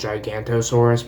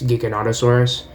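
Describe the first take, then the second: First: Three syllables come before 'saurus', with no 'no'. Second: Four syllables come before 'saurus', including 'no'. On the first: The speaker calls it wrong. "people pronounce it as Gigantosaurus" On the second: The speaker calls it right. "but it's Giganotosaurus"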